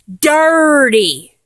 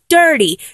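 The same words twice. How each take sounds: First: The r sound in the word is drawn out. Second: The r sound in the word is short. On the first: The speaker calls it right. "With two R's" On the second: The speaker calls it wrong. "not Dirty"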